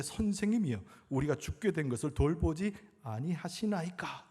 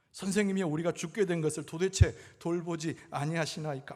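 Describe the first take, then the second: First: Raised opening cry, then easing down; scripture quote read dramatically. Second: Higher, louder acted reproach; imitated resentful complaint. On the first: Retold or imitated. Disciples waking their teacher in the storm, dramatic plea. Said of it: "이렇게 이야기했다는 거예요". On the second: Disciples blurting at sleeping Jesus, resentful complaint. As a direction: push the blame, mimicking the disciples. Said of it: "막 원망 섞인 얘기로".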